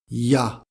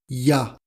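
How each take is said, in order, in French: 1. Elle est condensée en une seule syllabe courte. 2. Elle est condensée en une seule syllabe courte.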